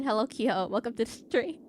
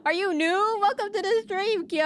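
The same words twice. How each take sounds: First: Said in the usual way. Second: Much higher, bright welcome; excited high greeting. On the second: Real, not acted. Streamer welcomes new viewer Kyo, excited high voice. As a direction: pitch it up to welcome him.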